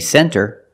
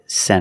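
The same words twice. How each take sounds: First: The T after the N is pronounced. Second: The T after the N is dropped. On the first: "you can say center. It's correct" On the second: "a lot of times you don't hear the T"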